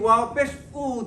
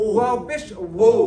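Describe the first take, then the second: First: The final vowel is an 'u'-like sound. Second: The final vowel is an 'o'-like sound. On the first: The speaker calls it wrong. "হামজার সাথে এটার কোনো কি থাকলো না পার্থক্য থাকলো না" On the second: The speaker calls it right. "ঠোঁটগুলা ভিতর দিকে যাচ্ছে"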